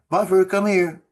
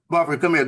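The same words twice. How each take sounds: First: The call is said softly, without firmness. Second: The call is said firmly, with authority. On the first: The speaker calls it wrong. "It's it's not" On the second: The speaker calls it right. "you gotta be firm with them"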